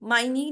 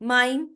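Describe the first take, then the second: First: An extra vowel sound is added at the end. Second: The word ends without any extra vowel sound. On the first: The speaker calls it wrong. "माइनी नहीं कहेंगे" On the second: The speaker calls it right. "क्या कहेंगे?"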